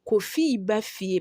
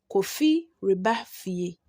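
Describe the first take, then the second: First: The re syllable is dropped before ba. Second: The re syllable is said before ba. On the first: "when you are pronouncing it, you will say" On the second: "The last example we have here says"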